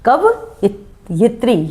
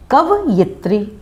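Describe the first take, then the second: First: कवयित्री stretched very slowly, short यि; slow model of the right word; slow demo. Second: कवयित्री slow, with यि; careful teacher demo; correct form. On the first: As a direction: drag out कवयित्री syllable by syllable. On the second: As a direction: model कवयित्री slowly. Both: Shown as a demonstration. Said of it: "शुद्ध उच्चारण क्या है?".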